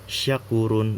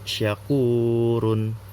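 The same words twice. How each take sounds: First: The u vowel is cut short. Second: The u vowel is held long. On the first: The speaker calls it wrong. "Bukan syakurun" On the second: The speaker calls it right. "tapi syakurun"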